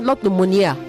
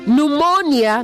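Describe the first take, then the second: First: The stress is not on the second syllable. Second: The stress is on the second syllable. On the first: The speaker calls it wrong. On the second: The speaker calls it right. "The stress is on the second syllable"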